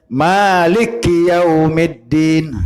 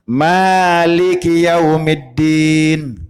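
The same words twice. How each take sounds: No difference in how they are said.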